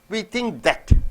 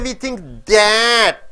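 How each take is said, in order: First: 'That' is weak and reduced. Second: 'That' is full and stressed. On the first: The speaker calls it right. "That is unstressed here" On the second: The speaker calls it wrong. "You don't say"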